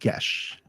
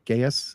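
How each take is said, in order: First: The word ends with a sh sound. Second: The word ends with an s sound. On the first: The speaker calls it right. "it's pronounced Gesh" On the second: The speaker calls it wrong. "most people would probably pronounce it as Geas"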